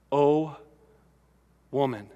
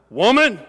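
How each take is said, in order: First: Soft, tender "Oh, woman", the "woman" dropping low; gentle "Oh, woman". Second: "Woman!" barked, higher and sharp; harsh "Woman!". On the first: Preacher gently voicing Jesus' tender "Oh, woman". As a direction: say "woman" softly, as a kind address. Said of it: "this is not, "Woman!". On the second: Preacher showing the derogatory reading of "Woman!". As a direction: snap "Woman!" as an insult. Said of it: "It is not that". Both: Shown as a demonstration.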